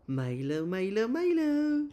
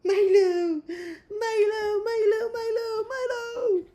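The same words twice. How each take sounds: First: Slow, rising, high call of the name; drawn-out name call. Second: Very high squeals of the name; squealing name. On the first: Calling the dog slowly and high to excite him. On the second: Squealing the dog's name at him, very high and delighted. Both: Real, not acted. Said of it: "And now he's smiling".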